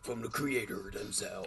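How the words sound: It is read in a put-on deep voice.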